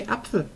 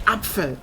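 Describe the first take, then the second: First: Apfel said soft and quick, the pf slurred; soft everyday German. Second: Apfel said hard, with a crisp pf; Apfel, every consonant clipped sharp; hard German. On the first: Showing viewers how Germans really say it, softly. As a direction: Apfel tossed off lightly, as everyone says it. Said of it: "in reality everyone just say". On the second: Showing viewers how German can sound hard, saying it hard. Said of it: "You can say Apfel". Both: Shown as a demonstration.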